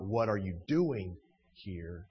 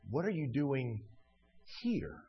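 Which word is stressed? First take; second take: you; here. First: The stress is on you. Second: The stress is on here.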